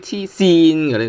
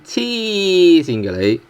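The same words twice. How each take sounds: First: The first word 痴 is not stressed. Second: The first word 痴 is stressed and lengthened.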